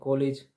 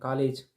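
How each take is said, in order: First: The first vowel is a rounded 'o' sound. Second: The first vowel is an open 'aa' sound. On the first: "कभी बोल देते हैं कॉलेज" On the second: "एक तो वो कभी बोल देते हैं कॉलेज"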